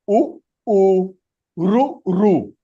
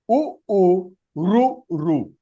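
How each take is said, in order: No difference in how they are said.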